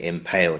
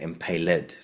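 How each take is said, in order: First: The -ed ending is silent, giving two syllables. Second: The -ed ending is sounded as its own syllable. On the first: The speaker calls it wrong. "so you don't say impaled" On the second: The speaker calls it right. "a little accent in the script on top of the e"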